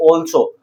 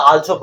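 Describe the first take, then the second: First: "also" with a rounded "aw" opening; correct pronunciation. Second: "also" with an "aal" opening; common mispronunciation. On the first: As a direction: say "also" as "AWL-so". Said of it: "ये also नहीं है". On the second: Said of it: "बहुत से इसे also पढ़ते हैं". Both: Shown as a demonstration.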